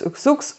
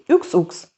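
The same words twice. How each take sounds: First: The two words are said fast, run together. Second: The two words are said at normal speed.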